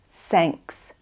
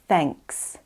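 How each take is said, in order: First: The word begins with an s sound. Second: The word begins with a th sound. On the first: The speaker calls it wrong. "try not to say s, sanks instead of thanks" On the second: The speaker calls it right. "instead of thanks"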